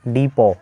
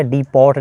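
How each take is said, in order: First: डिपो said "dipo", no t at the end; डिपो with a silent t; correct, t silent. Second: डिपोट with the final t pronounced, "dipot"; डिपोट said dipot, the wrong way; wrong take, t sounded. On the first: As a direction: say डिपो and stop on the o. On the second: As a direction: say डिपोट with a hard t at the end. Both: Shown as a demonstration. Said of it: "डिपोट नहीं पढ़ेंगे".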